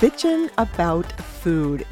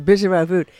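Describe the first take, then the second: First: The phrase is said slowly. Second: The phrase is said quickly.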